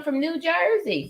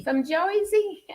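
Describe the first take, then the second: First: Said in the usual way. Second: High, slow, playful "Joisey" accent; hammed-up Jersey accent, pitched way up; Jersey accent attempt. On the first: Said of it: "a Jersey accent". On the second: Shown as a demonstration. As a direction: stretch it out in a mock New Jersey accent. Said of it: "That was my best little attempt".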